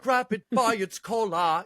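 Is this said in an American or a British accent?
British. It is said in a put-on British accent. It sounds gentle and not threatening.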